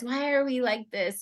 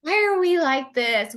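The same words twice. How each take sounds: First: Said in the usual way. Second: Louder, higher exasperated cry of "Why are we like this?"; exasperated outcry. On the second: Real, not acted. Host venting to her guest about women's habits, exasperated and loud. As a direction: throw up your hands at "Why are we like this?".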